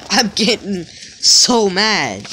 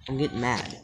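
First: Slow, stretched and fed up; drawn-out real anger. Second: Low, soft, holding back anger; under your breath, getting annoyed; muttered frustration. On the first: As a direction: drag out every word, losing patience. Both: Real, not acted.

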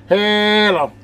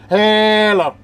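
No difference in how they are said.

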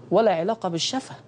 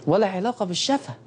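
No difference in how they are said.

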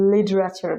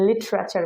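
First: লিটারেচার with d for t, "lidrachar"; flapped t. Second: লিটারেচার with a clear t; standard t. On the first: Teacher showing what natives say instead, লিটারেচার as "lidrachar". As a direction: soften the t of লিটারেচার to a d. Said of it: "লিটারেচার বলতেছে". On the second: Teacher showing what natives don't say, লিটারেচার with a hard t. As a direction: pronounce the t fully in লিটারেচার. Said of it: "ওরা কিন্তু আর লিটারেচার বলতেছে না". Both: Shown as a demonstration.

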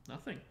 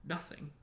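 First: Truthful. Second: Scornful spat echo. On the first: Harry answering Filch, truthful and understated. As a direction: answer simply, honestly. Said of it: "said Harry truthfully". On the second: Filch disbelieving Harry, spitting it out. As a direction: spit the word back in disbelief. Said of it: "spat Filch". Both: A narrator's reading.

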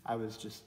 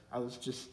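No difference in how they are said.

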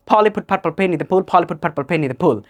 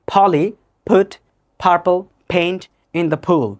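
First: Quicker, run-together repeats with popping p's; accelerated tongue twister. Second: Very slow, word by word with pauses; slow tongue twister. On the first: Teacher shows learners how to speed up, accelerated. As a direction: rattle it off twice without stopping between words. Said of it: "then accelerate". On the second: Teacher starts the tongue twister for learners, slowly. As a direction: separate each word and pop every p. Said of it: "প্রথমে slowly". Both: Shown as a demonstration.

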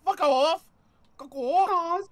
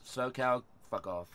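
First: High, loud squawking fuck off; mock a friend's squeaky snap; much higher mimicry of a friend; imitating Kitty twelve fifteen. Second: Much softer and lower fuck off; low deadpan dismissal; quiet, flat fuck off. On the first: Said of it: "Kitty twelve fifteen sounds like". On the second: Shown as a demonstration. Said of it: "All right, here you go".

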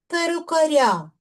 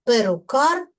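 First: Перукаря stressed on final "ря"; stress on ending. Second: Перукар stressed on final "кар"; stress on suffix. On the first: Teacher showing stress moving in genitive, stress on ending. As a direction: push the stress onto the last syllable of перукаря. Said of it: "наголос вже падає на закінчення". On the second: Teacher demonstrating nominative case stress, stress on suffix. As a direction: lean on the last syllable of Перукар. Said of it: "наголос падає на суфікс". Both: Shown as a demonstration.

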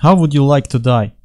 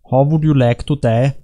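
First: Put-on light Russian-accented movie villain; slightly hammed-up Russian accent. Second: Put-on light German-accented movie villain; slightly hammed-up German accent. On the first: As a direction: ask it with a mock Russian accent. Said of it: "with a Russian accent". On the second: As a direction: ask it with a mock German accent. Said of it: "with a German accent".

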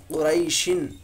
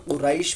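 First: क़ुरैशिन with the final "in" sounded; full vowel ending. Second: क़ुरैश closed on a vowelless sh; stopped ending. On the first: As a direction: read क़ुरैशिन through to its last vowel and n. (क़ुरैशिन, आख़िरी "इन" की आवाज़ के साथ) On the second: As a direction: stop on the "sh" of क़ुरैश, no "in". (क़ुरैश, आख़िरी शीन पर जज़म) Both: Shown as a demonstration. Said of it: "लेकिन यहाँ पर क़ुरैश पढ़ेंगे".

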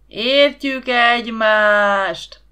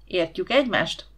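First: Booming, slow crowd shout; thundering chorus answer; crowd roaring back. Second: Said in the usual way. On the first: A narrator's reading. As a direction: roar it back like a whole crowd. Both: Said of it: "Meglepő hangerővel dübörgött a válasz".

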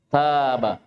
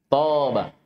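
First: "Taba" with a plain dental T and open long a; light Arabic ta. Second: "Taba" with a heavy, backed T and dark long vowel; emphatic Arabic ta. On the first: Teacher contrasts letters for students, "Taba" with light ت. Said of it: "istami'u qabla an taqra'u". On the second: Teacher contrasts letters for students, "Taba" with heavy emphatic ط. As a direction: open "Taba" on emphatic ط, almost "Toba". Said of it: "Huna harf ta fi awalil kalima". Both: Shown as a demonstration.

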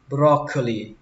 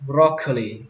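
The two takes are said the same way.

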